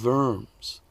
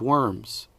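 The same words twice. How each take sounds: First: The word begins with a V sound. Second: The word begins with an English W sound. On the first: The speaker calls it right. "in German, where a W is pronounced like a V" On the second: The speaker calls it wrong. "Whoops, I forgot to say it in German"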